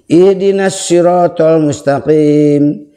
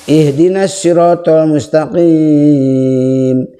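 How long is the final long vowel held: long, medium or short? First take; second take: short; long. First: The final long vowel is held briefly. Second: The final long vowel is held very long. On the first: "Itu bisa dua" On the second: "bisa enam harokat"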